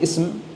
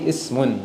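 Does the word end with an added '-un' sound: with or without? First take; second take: without; with. First: The word ends without the final -un sound. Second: The word ends with the final -un sound. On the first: The speaker calls it wrong. "I don't want to say ism" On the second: The speaker calls it right. "I would say ismun, like this"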